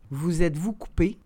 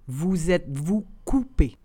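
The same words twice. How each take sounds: First: The phrase is said at conversational speed. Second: The phrase is said slowly and carefully. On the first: "and then in communicational Canadian French" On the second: "then slowly said in French"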